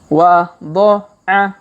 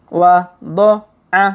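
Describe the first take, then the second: The two takes are said the same way.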